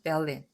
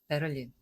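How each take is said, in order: First: The r is nearly silent, sounding like Bellin. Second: The r is pronounced clearly, Korean style. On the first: The speaker calls it right. "정확하게는 베를린. 그래서 벨린이 좀 더 가깝긴 해요" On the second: The speaker calls it wrong. "상당히 한국적인 발음이죠"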